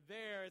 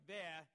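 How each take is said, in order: First: Said in the usual way. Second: There said without the R, like thah; Boston there. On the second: Shown as a demonstration. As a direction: drop the R in there, Boston style. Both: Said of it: "they take away R's on words like".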